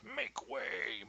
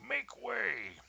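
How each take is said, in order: First: Loud high soldier bellow. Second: Even louder, higher bellow. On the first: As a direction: bellow it to clear the crowd. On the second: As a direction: push the shout harder, commanding. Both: Acted. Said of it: "as he bellowed".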